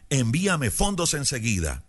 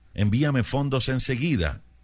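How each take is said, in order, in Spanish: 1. Se lee con una voz ronca, bramando. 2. Se lee con una voz normal, corriente.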